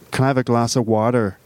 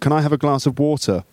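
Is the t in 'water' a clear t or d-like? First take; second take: d-like; clear t. First: The t in water sounds like a d. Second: The t in water is a clear t. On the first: "The T becomes a D like in America" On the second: "Whereas in England, I would say"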